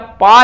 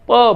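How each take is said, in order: First: The p is followed by a long aa vowel. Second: The p is followed by a short a vowel. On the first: The speaker calls it wrong. "हमें पै या पा नहीं बोलना है" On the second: The speaker calls it right. "प बोलना है"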